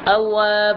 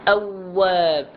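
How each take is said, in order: First: The doubled w sound is weakened and short. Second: The doubled w sound is held long. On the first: The speaker calls it wrong. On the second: The speaker calls it right.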